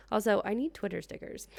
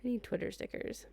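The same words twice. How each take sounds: First: Need leaned on, falling after; first take with need lightly stressed. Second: Restating it with weight on need; stressed need, restated. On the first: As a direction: push the word need a little. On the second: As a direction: land on need like a verdict. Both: Shown as a demonstration. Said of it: "Can we just say".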